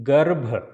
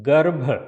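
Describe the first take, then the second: Both takes have the same delivery.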